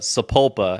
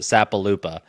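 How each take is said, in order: First: The name is said with three syllables. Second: The name is said with four syllables. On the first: The speaker calls it right. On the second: The speaker calls it wrong.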